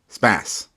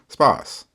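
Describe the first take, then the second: First: It is said in an American accent. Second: It is said in a British accent.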